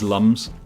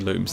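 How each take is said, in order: First: The vowel is a short 'uh' sound. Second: The vowel is a long 'oo' sound. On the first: The speaker calls it right. "It is lums" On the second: The speaker calls it wrong. "you're not supposed to say looms"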